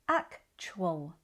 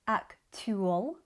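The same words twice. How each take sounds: First: The t and u blend into a ch sound. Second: The t is a plain, separate t sound. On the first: The speaker calls it right. "we say actual. Chwal" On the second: The speaker calls it wrong. "We don't say actual"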